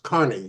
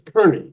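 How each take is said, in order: First: The first syllable sounds like 'car'. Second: The first syllable sounds like 'cur'. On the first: This is how a friend's family said the name. "but pronounced Carney" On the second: This is how the doctor says the name. "you pronounce yours Kearney"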